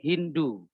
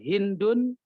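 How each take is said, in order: First: The name ends without a final n sound. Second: The name ends with a final n sound. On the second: "boleh dibaca Hindun"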